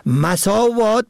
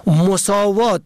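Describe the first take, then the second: First: مساوات said masâvât, short a first; مساوات pronounced masâvât; fatha on first. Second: مساوات said mosâvât, short o first; مساوات pronounced mosâvât; damma on first. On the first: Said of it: "به فتح اول". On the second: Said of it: "به ضم اول". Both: Shown as a demonstration.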